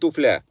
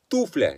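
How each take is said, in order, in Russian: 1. Ударение на втором слоге. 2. Ударение на первом слоге. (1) "не туфля" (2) "с ударением на первый слог"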